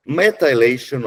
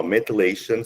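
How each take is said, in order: First: "Methylation" with a long eye vowel, meh-tie-LAY-shun; alternate pronunciation. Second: "methylation" with a short unstressed middle vowel, meh-tuh-LAY-shun; alternate pronunciation. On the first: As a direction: say "Methylation" with "methyl" rhyming with tile. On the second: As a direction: say "methylation" with "thy" reduced to tuh. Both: Shown as a demonstration. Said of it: "hear me say methylation or methylation".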